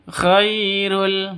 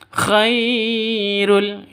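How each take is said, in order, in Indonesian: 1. Suku kata pertama dibaca pendek dan langsung. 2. Suku kata pertama dipanjangkan. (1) "Yang betul langsung khairul" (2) "tidak boleh dipanjang, panjangkan. Khairul itu salah ya"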